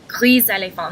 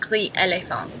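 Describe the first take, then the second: First: The final s is sounded, linking into éléphant. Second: The final s is silent, words kept separate. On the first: The speaker calls it right. "Together, gris éléphant ... Because of the the vowel after the S, you pronounce it gris éléphant" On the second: The speaker calls it wrong. "not gris éléphant"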